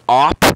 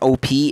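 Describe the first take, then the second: First: It is said as one short word. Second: It is said as two separate letters. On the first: The speaker calls it right. "It is op" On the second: The speaker calls it wrong. "it's not O P"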